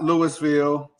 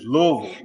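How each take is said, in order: First: The syllables are spelled out separately. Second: The syllables run together in one rhythm. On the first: The speaker calls it wrong. "it's not Louisville" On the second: The speaker calls it right. "you got to say it all in one, all in one rhythm"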